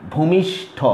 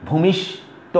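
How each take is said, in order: First: ভূমিষ্ঠ ending in aspirated ঠ; breathy ঠ at the end of ভূমিষ্ঠ; correct pronunciation. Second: ভূমিষ্ঠ slowly, unaspirated ট at the end; wrong pronunciation. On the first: Teacher giving students the right form, aspirated ভূমিষ্ঠ. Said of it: "এটা কিন্তু সঠিক নয়". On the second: Teacher showing students the wrong form, slow ভূমিষ্ঠ. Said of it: "ভূমিষ্ঠ নয়". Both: Shown as a demonstration.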